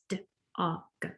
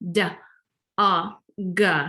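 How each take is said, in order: First: The consonants are clipped with no added vowel. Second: Each consonant ends with an added 'uh' vowel. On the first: The sounds blend into the word. The speaker calls it right. "that's not the same as" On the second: The sounds no longer blend into the word. The speaker calls it wrong. "if you put the schwa on there"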